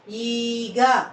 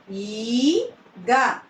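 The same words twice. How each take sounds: First: Said in the usual way. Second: "ఈగ" split, long rising ఈ, then గ; "ఈగ" in two separate syllables. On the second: Shown as a demonstration. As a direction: sound out "ఈగ" with a gap before గ. Teacher sounds out syllables.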